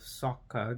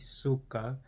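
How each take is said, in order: First: The name is said the familiar way. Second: The name is said the altered way. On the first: The speaker calls it right. "Instead of Sokka" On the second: The speaker calls it wrong. "they say Suka"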